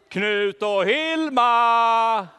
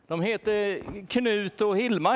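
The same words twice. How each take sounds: First: Very slow, loud drawn-out call; long loud call with a laugh in it; calling together. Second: Said in the usual way. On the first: Acted. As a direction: stretch every syllable, calling far away. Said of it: "Ska vi ropa?".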